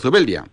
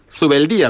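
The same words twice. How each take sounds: First: The stress falls on the syllable bel. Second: The stress falls on the syllable di. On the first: This is the way it has always been said here. "hemos dicho toda la vida Zubeldía y seguimos diciendo Zubeldía" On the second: This is the way the family itself says it. "Pero ustedes allí, su apellido, para dejarlo perfectamente claro, es Zubeldía"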